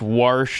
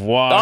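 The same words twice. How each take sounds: First: It uses a Nebraska regional pronunciation. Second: It uses a standard general pronunciation.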